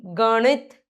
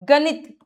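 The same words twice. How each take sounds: First: गणित with a curled-tongue ṇ; "gaṇit", retroflex nasal. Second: गणित with plain n; tongue on teeth in गणित; dental-n error. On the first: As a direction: flap the middle of गणित. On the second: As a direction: say गणित wrongly as "ganit". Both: Shown as a demonstration. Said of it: "न और ण की अशुद्धियां".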